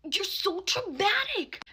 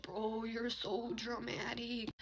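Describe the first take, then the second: First: High, drawn-out mimicked whine; mock him with a high, slow complaint; mock whiny retort. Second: Slow, soft mimicked complaint; mock dismissive retort. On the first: Guy's second retort, mimicked. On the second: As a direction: imitate him, dragging the words out softly. Guy's first retort, retold.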